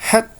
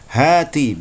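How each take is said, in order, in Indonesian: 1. Kata ini diakhiri bunyi konsonan yang terputus. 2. Kata ini diakhiri bunyi vokal.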